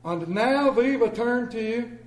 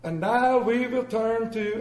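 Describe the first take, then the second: First: Pastor interrupted. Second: Slow, loud, high preacher voice; mock solemn pastor announcement; pompous pastor. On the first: Retold or imitated. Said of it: "And he looks down". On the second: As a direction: announce from the pulpit slowly. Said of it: "and he goes".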